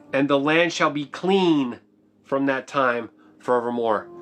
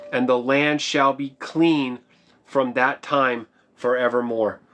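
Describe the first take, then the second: Both takes have the same delivery.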